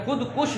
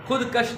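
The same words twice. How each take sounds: First: खुदकुश ending in "-kush"; short u in the last syllable of खुदकुश; correct pronunciation. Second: खुदकश ending in "-kash"; short a in the last syllable of खुदकश; mispronunciation demo. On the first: Teacher giving pupils the word, correct pronunciation. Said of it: "ये खुदकुश ही है word". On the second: Teacher citing the common reading, mispronunciation demo. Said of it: "खुदकश नहीं होता". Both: Shown as a demonstration.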